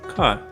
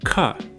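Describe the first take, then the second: First: The K is released without a puff of air. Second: The K is released with a puff of air. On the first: "don't let the paper move with the air that comes out of your mouth" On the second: "Air should come out and move the paper"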